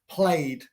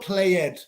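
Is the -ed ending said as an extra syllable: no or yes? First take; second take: no; yes. First: The ending adds no extra syllable. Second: The ending is said as an extra syllable. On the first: The speaker calls it right. "we don't pronounce the E" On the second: The speaker calls it wrong. "No estoy diciendo played. Played no existe"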